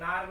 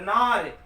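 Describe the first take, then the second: First: The word is said plainly, without extra force. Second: The word is said with extra force. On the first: It means woman. "नार माने स्त्री" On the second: It means lion. "जब इस शब्द पर उच्चारण पर बल देंगे"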